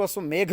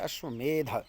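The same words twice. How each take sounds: First: अश्वमेघ ending in a 'gh' sound; mispronounced ending. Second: अश्वमेध ending in a 'dh' sound; corrected pronunciation. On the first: Teacher quoting a common student error, mispronounced अश्वमेघ with final घ. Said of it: "वो गलत है". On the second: Teacher correcting a common error, अश्वमेध with clear final ध. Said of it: "कुछ लोग उसको अश्वमेघ बोल देते हैं". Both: Shown as a demonstration.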